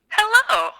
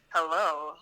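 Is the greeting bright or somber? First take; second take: bright; somber. First: It is said in a bright, cheerful tone. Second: It is said in a somber, serious tone.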